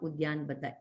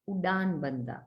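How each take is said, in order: First: A y sound follows the d in the first word. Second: No y sound follows the d in the first word. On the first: The speaker calls it wrong. "usually people always say it as Udyan Bandha, but it's not Udyan Bandha" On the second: The speaker calls it right. "It is Udan Bandha"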